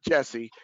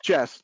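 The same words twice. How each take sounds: First: "Jesse" in two syllables, ending in "-ee"; Jesse, the mistaken form. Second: "Jess" as one syllable, no ending vowel; Jess as pronounced. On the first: Host showing listeners the mistaken name, "Jesse" with an "-ee" ending. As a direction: add an "-ee" to Jess: "Jesse". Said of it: "not Jesse". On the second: Host telling listeners how a colleague's name is said, "Jess" in one syllable. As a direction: say "Jess" short of any "-ee" ending. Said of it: "that's pronounced Jess". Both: Shown as a demonstration.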